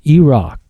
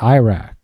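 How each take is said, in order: First: The first vowel is a short 'i' sound. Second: The first vowel sounds like the letter 'eye'. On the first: The speaker calls it right. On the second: The speaker calls it wrong. "not Iraq"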